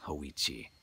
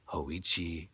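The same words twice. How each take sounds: The two takes are said the same way.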